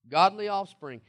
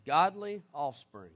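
First: Said in the usual way. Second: "Godly offspring" drawn out slowly, each word weighted; slow emphatic quote. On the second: Shown as a demonstration. Preacher reading "Godly offspring" slowly to his congregation. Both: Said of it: "repeated for emphasis".

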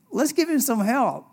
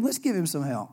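First: Higher, pleading take. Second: Said in the usual way. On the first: Pretend. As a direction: beg for help on his behalf. Quoted then restated plainly.

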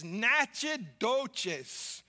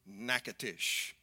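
First: Natchitoches said as "NATCH-ih-DOE-chiz"; confident mispronunciation. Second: Natchitoches said as "NACK-uh-tish"; local pronunciation. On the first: Acted. Wife insisting on the town's name, Natchitoches mispronounced "natch-ih-DOE-chiz". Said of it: "That's how they pronounce it down here". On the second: Shown as a demonstration. Pastor showing travellers how locals say it, Natchitoches as "NACK-uh-tish". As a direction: say Natchitoches in three quick syllables, "NACK-uh-tish". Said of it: "pronounce it the way that the locals do".

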